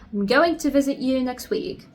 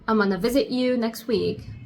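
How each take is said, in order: First: Every word of 'I'm going to' is fully pronounced. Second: 'I'm going to' is squeezed into 'amana'. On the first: "instead of saying I'm going to" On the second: "you can say also amana"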